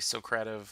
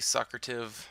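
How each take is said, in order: First: It is pronounced like the word Socratic. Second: It is pronounced unlike the word Socratic. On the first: This is how the speaker says it. "I say Socrative, like Socratic seminar" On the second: This is how some other people say it. "Some people might say"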